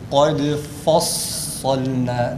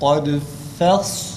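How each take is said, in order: First: The fa sound is made thick and heavy. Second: The fa sound is thin, then sad thick. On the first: The speaker calls it wrong. "Kaydı fassalna değil" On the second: The speaker calls it right. "fa'nın ince okunuşundan hemen sonra sadın kalın"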